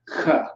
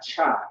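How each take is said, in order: First: It starts with a hard throat 'k' sound. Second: It starts with a soft 'ch' sound. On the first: The speaker calls it right. "it's k, k. Always say it with your throat" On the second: The speaker calls it wrong. "is not cha"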